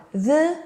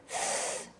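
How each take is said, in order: First: "the" as an isolated buzzing dh; voiced th sound. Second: "th" as pure air, no voice; voiceless th sound. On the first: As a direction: voice the th in "the", as ending breathe. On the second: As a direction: blow "th" softly, as ending breath. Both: Shown as a demonstration. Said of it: "And the last sound".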